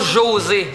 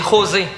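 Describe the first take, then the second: First: The name begins with a soft French j sound. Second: The name begins with a breathy h sound. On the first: The speaker calls it wrong. "c'est pas José" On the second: The speaker calls it right. "en espagnol, on prononce pas les J. Fait que ça sonne José, avec un H"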